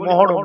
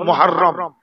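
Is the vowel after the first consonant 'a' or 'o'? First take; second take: o; a. First: The middle vowel sounds like a short 'o'. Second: The middle vowel sounds like an open 'a'. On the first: The speaker calls it wrong. "আমরা বলি মুহররম, মুহররম নয়" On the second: The speaker calls it right. "উচ্চারণ হলো মুহাররম"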